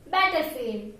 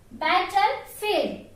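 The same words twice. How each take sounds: First: Said in the usual way. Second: Battlefield said very slowly, syllable by syllable; slow model word. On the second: Shown as a demonstration. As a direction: drag Battlefield out for learners. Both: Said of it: "How to pronounce that?".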